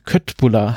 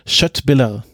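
First: The second syllable has a plain German u sound. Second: The second syllable has a Swedish vowel near ü. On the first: The speaker calls it wrong. "wenn man ihn jetzt unwissend aussprechen würde" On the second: The speaker calls it right. "ich werde jetzt mal versuchen, das richtig auszusprechen"

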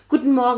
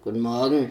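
First: The greeting sounds very cheerful. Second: The greeting sounds grumpy and unfriendly.

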